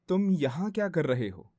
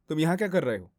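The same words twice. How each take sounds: First: The line is spoken slowly. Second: The line is spoken quickly without emotion. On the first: "slow बोलते हैं" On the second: "अब सिर्फ fast, without any other emotion"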